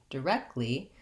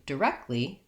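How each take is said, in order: No difference in how they are said.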